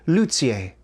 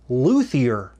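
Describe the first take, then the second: First: It is said in a non-American accent. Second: It is said in an American accent.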